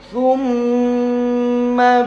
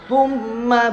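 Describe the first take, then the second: First: The doubled m is held longer. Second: The doubled m is cut short. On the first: The speaker calls it right. "tapi agak lamaan" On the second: The speaker calls it wrong. "nah nggak"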